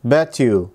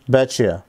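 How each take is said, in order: First: The t and y sounds stay separate. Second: The t and y merge into a ch sound. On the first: "هي اصلا bet you" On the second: "عندنا في الامريكان اكسنت لما حرف التي يجي بعد منه حرف الواي، في الحالة دي هنزود تشا في النص"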